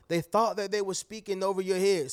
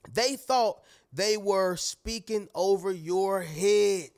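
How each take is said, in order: First: Said in the usual way. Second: Slow, deliberate, leaning on "thought"; slow emphasis. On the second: Shown as a demonstration. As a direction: spell it out slowly, stressing "thought".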